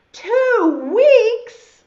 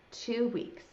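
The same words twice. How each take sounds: First: High, very loud disbelief; shocked outburst. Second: Subdued echo. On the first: Caterpillar realizes how long he must wait, shocked shout. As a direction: explode as the news sinks in. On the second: Caterpillar takes in how long it takes, subdued. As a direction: mumble the news back to yourself. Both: Acted.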